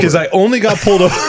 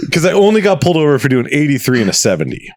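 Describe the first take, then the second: First: Higher, giggling through the line; laughing. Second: Said in the usual way. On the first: Real, not acted. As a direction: let a laugh break into it. Laughing while telling the story.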